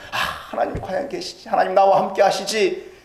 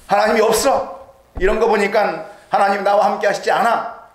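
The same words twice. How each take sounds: First: Gently asking God to be there; hopeful confession. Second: A touch of loud scoffing doubt, 하나님이 없어 a bit raised; mildly mocking the doubter who says God is absent; denying God. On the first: Retold or imitated. Preacher voicing a believer's tentative, hushed confession. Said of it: "라고 고백하고 보니까". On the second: Preacher voicing a doubter denying God, lightly raised scoff. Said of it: "하나님을 부정하려고 해보니까".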